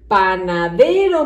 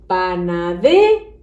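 First: Said in the usual way. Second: PANADERO read as "panade", rising, then a gap before "ro"; split-off final syllable. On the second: Shown as a demonstration. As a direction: stretch PANADE upward and hold back the RO. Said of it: "Falta la sílaba".

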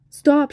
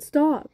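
First: High, loud sharp shout. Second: High repeated shout. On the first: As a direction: yell to halt the tank. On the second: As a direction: yell it again, urgent. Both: A narrator's reading. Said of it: "she shouted".

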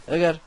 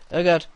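Both takes have the same delivery.

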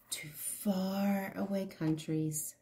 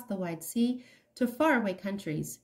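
First: Soft unvoiced whisper; whispered echo. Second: Said in the usual way. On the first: A narrator's reading. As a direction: breathe it like a secret echo.

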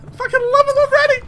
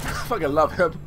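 First: High, quick gush of affection; gushing excitement. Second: Low, soft admission of love; quiet fondness. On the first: Fond remark repeated higher. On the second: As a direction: say it low, almost to yourself. Fond remark, then repeated higher. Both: Real, not acted.

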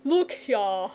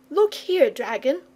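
First: Lightly voiced, unhurried dragon; languid dragon. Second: Put-on high, insistent young boy; jealous boy. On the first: Dragon turning to address the boy, languid. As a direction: draw it out as an easy-going dragon. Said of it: "he continued, addressing the boy". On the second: Boy interrupting for his friend, indignant. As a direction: cut in pitched up, as a boy. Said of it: "interrupted the boy, a little jealous". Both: A narrator's reading.

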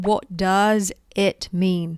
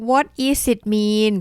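First: "What does it mean" said slowly, word by word; slow correct model. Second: Imitating a learner mistake. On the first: Shown as a demonstration. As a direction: say each word apart, slowly. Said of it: "Actually, you need to say". (พูดช้าๆ ทีละคำ) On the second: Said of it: "บางคนบอก".

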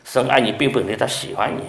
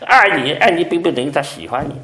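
First: Said in the usual way. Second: 爱 pressed higher and louder; stress on 爱. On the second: Shown as a demonstration. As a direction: hit 爱 hard.

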